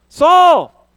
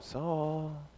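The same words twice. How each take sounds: First: The name is shouted loudly. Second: The name is said quietly and calmly. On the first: The call is forceful and urgent. The speaker calls it right. "He's yelling at him" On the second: The call is mild and gentle. The speaker calls it wrong. "it's not Christ going"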